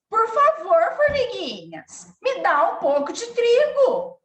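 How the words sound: The voice sounds angry and harsh. The speaker feels angry. "Se ela tivesse com raiva"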